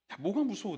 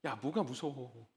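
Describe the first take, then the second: First: Said in the usual way. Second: Much softer and lower, slow and tender; soft, slow reassurance. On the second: Retold or imitated. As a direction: hush it like soothing a scared child. (아주 부드럽고 낮게, 천천히 다독이듯) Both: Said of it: "이렇게".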